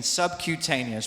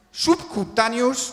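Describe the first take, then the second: First: Subcutaneous said "sub-kyoo-TAY-nee-us"; correct subcutaneous. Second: Slow subcutaneous said "sub-ku-TA-nyus"; mispronounced subcutaneous. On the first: Shown as a demonstration. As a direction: model subcutaneous the English way. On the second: Retold or imitated. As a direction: imitate the wrong Spanish subcutaneous. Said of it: "Es que me dicen subcutaneous".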